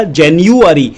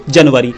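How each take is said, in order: First: जनवरी said as jeniuari, English style; correct English pronunciation. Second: जनवरी said as janvari, Hindi style; wrong Hindi reading. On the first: Shown as a demonstration. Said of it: "उच्चारण करना पड़ेगा जनवरी". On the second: Retold or imitated. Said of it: "तो ये गलत है".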